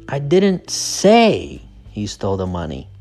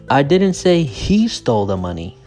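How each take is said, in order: First: The word 'say' is stressed. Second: The word 'he' is stressed. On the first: The speaker only suggested it. "So the stress is on say" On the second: Someone else took it. "So the stress is on he"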